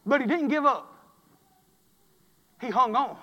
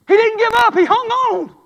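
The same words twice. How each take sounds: First: Said in the usual way. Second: Higher, louder preached repeat; repeated line rung out to the church; preached shout. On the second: Shown as a demonstration. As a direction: hammer it home with a shout. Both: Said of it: "repeated louder".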